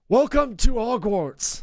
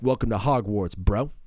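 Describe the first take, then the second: First: It is said in a bright, whimsical tone. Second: It is said in a dark, edgy tone.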